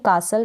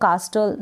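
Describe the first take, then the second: First: No t sound is heard in the middle. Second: A t sound is pronounced in the middle. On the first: The speaker calls it right. "ये जो टी है ये silent है" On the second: The speaker calls it wrong. "आप इसको कास्टल ना पढ़ें"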